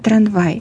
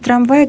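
First: The word has a colloquial nonstandard pronunciation. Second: The word has its standard literary pronunciation. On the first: The speaker calls it wrong. "говорят «трамвай»" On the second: The speaker calls it right. "вместо «трамвай»"

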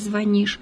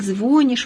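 First: It is said in the standard, normative way. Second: It is said in the colloquial, nonstandard way. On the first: The speaker calls it right. "вместо" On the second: The speaker calls it wrong. "к просторечным единицам мы отнесем такие варианты"

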